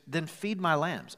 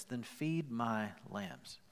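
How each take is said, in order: First: Firm command. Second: Gentle command. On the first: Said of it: "He goes". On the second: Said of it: "Jesus says this". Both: Retold or imitated.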